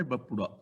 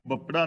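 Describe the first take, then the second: First: ਬਪੁੜਾ with a short u after the p; correct bapura. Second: ਬਪੜਾ with no u after the p; misread bapra. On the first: Preacher corrects the reading, ਬਪੁੜਾ with short u under pappa. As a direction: say ਬਪੁੜਾ as 'ba-pu-ra', sounding the aunkar u. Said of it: "ਪੱਪੇ ਥੱਲੇ ਔਂਕੜ ਹੈ". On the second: Preacher warns readers off this reading, misread ਬਪੜਾ without the u. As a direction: say ਬਪੜਾ as 'bap-ra', dropping the u. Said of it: "ਇਹਨੂੰ ਬਪੜਾ ਨਹੀਂ ਪੜ੍ਹਨਾ". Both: Shown as a demonstration.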